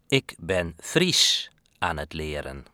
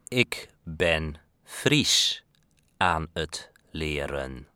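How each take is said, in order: First: It is said at normal speed. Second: It is said more slowly.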